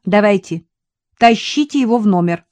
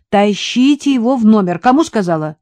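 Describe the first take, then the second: First: Louder, higher firm command "тащите его в номер"; ordering. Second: Louder stern repeat of "тащите его в номер"; insist, losing patience; raised voice. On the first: Katya ordering the men to drag him inside, commanding. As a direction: give a brisk order. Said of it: "приказала Катя". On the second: Katya repeating her order to the men, raised voice. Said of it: "вновь повысила голос Катя". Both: A narrator's reading.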